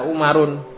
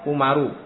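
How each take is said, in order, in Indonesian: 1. Kata ini berakhir dengan bunyi n tambahan. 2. Kata ini berakhir dengan vokal, tanpa n di akhir.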